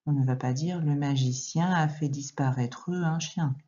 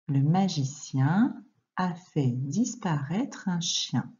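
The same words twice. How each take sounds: First: Said in the usual way. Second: Slow, every sound of "disparaître" pronounced separately; syllable-by-syllable reading. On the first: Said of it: "Quand on parle, on ne dit pas comme ça". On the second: Shown as a demonstration. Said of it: "On ne dit pas disparaître". (lecture lente, syllabe par syllabe)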